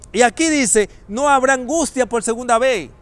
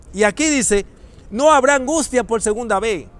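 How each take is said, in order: Both takes have the same delivery.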